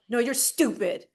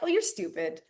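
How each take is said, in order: First: It is said in a mean, hostile tone. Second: It is said in a nice, playful tone.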